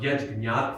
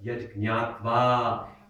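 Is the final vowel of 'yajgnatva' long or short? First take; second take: short; long. First: The final a vowel is short. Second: The final a vowel is long. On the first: The speaker calls it wrong. "not yajgnatva mokshase shubha" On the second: The speaker calls it right. "That last A needs to be long"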